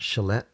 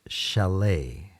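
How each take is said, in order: First: The final T is pronounced. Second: The final T is silent. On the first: The speaker calls it wrong. "It's not chalet" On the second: The speaker calls it right. "it's pronounced chalet"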